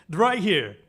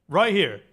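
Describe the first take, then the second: The two takes are said the same way.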